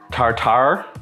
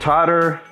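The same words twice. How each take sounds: First: Tartar is said with a British-sounding accent. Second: Tartar is said with a plain American accent. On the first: The speaker calls it wrong. "I said it like I was British" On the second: The speaker calls it right. "say it the normal way"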